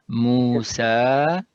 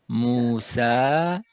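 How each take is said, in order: Both takes have the same delivery.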